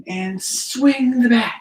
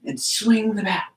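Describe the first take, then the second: First: Slow it right down as you swing; slow, drawn out. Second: Said in the usual way. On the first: Shown as a demonstration. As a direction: stretch out swing the bat slowly. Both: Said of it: "Can you do that again?".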